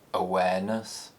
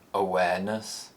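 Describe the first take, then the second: First: The pitch rises from a low starting point. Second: The pitch rises from a low starting point.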